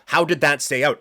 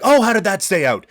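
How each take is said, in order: First: It sounds like a genuinely puzzled question. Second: It sounds like an excited play-by-play exclamation.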